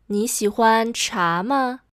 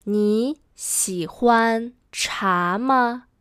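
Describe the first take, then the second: First: Said in the usual way. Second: Slow, word by word; spaced-out teaching pace; slow model sentence. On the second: Shown as a demonstration. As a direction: model it slowly for learners. Teacher models sentence slowly first.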